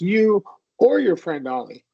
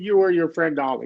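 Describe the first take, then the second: First: The word "or" is stressed. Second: The word "or" is not stressed.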